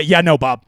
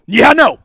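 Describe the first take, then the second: First: Said in the usual way. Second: "Yeah, no" hit loud with a stretched "Yeah"; louder, insistent "Yeah, no"; emphatic repeat. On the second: Retold or imitated. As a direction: punch "Yeah, no" loudly. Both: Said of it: "I said, uh".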